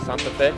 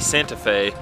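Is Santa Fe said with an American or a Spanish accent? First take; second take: Spanish; American. First: It is said with a Spanish accent. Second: It is said with an American accent. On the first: "That's how you pronounce it, right?" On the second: "I want to say Santa Fe because I'm a gringo"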